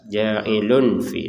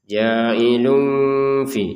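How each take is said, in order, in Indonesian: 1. Bunyi n sebelum fi itu jelas. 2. Bunyi n sebelum fi itu samar. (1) "tanwinnya itu unnya itu jelas" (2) "dibaca dengan samar"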